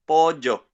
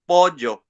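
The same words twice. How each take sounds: First: It is said in a younger Paraguayan accent. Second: It is said in a younger Paraguayan accent.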